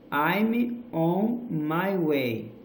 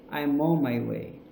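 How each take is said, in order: First: "I'm on my way" very slowly, word by word; unlinked words. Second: "I'm on my way" run together as "I'mon-my-way"; linked words. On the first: Teacher showing words before linking, "I'm on my way" slow and separate. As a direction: separate "I'm", "on", "my", "way" and stretch each. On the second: Teacher showing link words, "I'm on my way" joined up. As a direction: join "I'm" to "on" in one smooth chunk. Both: Shown as a demonstration. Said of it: "esses link word".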